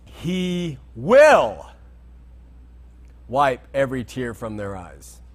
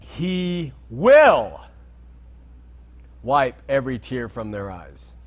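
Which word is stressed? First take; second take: will; will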